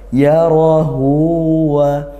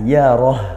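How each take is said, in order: First: The final vowel after h is drawn out long. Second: The word ends abruptly on the h sound. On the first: The reading continues into the next verse. "ada wasol haknya jadi mat silah qasirah dibaca panjang" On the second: The reading stops at the end of the verse. "kalau waqaf ... haknya dibaca sukun seperti itu"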